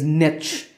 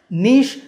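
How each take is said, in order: First: The word is said the traditional English way. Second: The word is said the French-influenced way. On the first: This is the older, traditional form. "The traditional pronunciation of this word is niche" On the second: This is the newer, more common form in British English. "due to influences from other languages like French, niche has become more popular"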